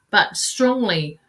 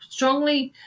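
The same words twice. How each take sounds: First: Said in the usual way. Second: Strongly lifted higher on the repeat; stress on strongly. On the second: Shown as a demonstration. Psychic urging Colleen, strongly stressed on the repeat. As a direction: punch strongly a second time, higher.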